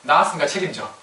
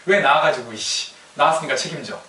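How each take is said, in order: First: A hint of a sulky teenager talking back; mild teen retort. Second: Mock teen outburst. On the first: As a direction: toss it at the parents lightly. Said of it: "뭐라 그래요". (부모에게 대드는 사춘기 아이, 가볍게 흉내) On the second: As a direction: start with a burst, then grumble the demand. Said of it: "사춘기 때는 하는 얘기지". (부모에게 짜증내며 대드는 사춘기 아이 흉내)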